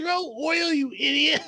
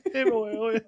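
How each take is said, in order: First: Retold yell. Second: Said in the usual way. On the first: Otto shouting at Subaru, a high exasperated yell. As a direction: yell it at the fool who forgot the oil. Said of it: "And then Otto's like".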